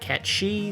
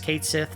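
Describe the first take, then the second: First: The name is said as 'ket shee'. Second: The name is said as 'kate sith'. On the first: This is the Scottish or Irish pronunciation. "not Ket She" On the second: This is the official game pronunciation. "officially say that the pronunciation of that is Kate Sith"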